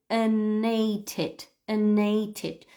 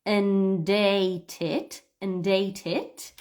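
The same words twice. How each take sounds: First: "an ate it" with just N, no D; dropping the D. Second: "and ate it" with a clear D linking into "ate". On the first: Teacher showing the reduced "an ate it" to students. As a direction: say "and" as "an" straight into "ate". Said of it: "So just saying the letter N". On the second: Teacher showing the linked D in "and ate it". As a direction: say "and ate it" sounding the D before "ate". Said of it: "the D or not". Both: Shown as a demonstration.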